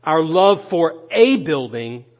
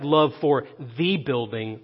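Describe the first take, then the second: First: "a" said as a full, weighted "ay"; stress on A. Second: "the" said as a weighted "thee"; single out "the" as THEE before building; stress on THE. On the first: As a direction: lean on the article "a". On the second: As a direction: lean on the article "the", quieter overall. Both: Real, not acted. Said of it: "don't miss this now".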